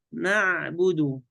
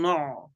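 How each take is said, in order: First: نعبد slow with a thin, open na; all letters light. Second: نع with a dark, rounded "no" vowel; wrong heavy nun. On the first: Sheikh models the correct word, slow light letters. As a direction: keep "نعبد" light and drawn out. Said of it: "كله مرقق". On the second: Sheikh shows the second error, heavy nun. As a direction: thicken "نع" toward "no'". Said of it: "لا نقول نع". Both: Shown as a demonstration.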